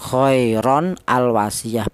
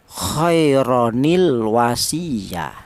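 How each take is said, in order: First: The n stops before a separate al sound. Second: The n joins the next word with an added i. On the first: The speaker calls it wrong. "bukan khairon al wasiyah, bukan" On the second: The speaker calls it right. "Jadi cara bacanya khaironil wasiyah"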